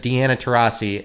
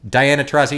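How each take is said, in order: First: "Deanna Taurasi" with dee-ANN-uh in place of dye-AN-uh; imitating mispronunciation. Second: Diana Taurasi said as dye-ANN-uh; "Diana" with the long "eye" sound, dye-AN-uh tuh-RAH-see; correct name. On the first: Mimicking the comic's botched name at the ESPYs, "Deanna" as dee-AN-uh. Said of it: "he said". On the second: Shown as a demonstration. Showing the right way next to the comic's slip, "Diana" as dye-AN-uh. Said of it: "he said, "Deanna Taurasi".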